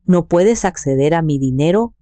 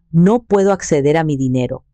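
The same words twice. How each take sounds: First: Puedes stressed with a rising push. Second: A touch of a whine, understated; mild grumbling complaint; whiny complaint. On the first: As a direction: lean hard on the word puedes. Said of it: "enfatizando la palabra". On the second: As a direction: complain lightly about the money. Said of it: "se quejó". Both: A narrator's reading.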